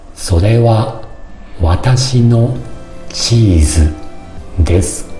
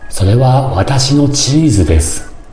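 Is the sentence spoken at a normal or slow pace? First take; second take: slow; normal. First: The sentence is spoken at a slower pace. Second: The sentence is spoken at a normal pace.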